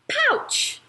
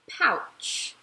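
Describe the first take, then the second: First: The word is said in an excited, lively voice. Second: The word is said in a calm, plain voice.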